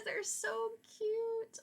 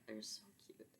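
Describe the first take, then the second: First: Very high, very slow, squealing cute voice; cooing over cuteness. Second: Soft unvoiced whisper of delight; whispered cuteness. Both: Real, not acted. Gushing over the lambs.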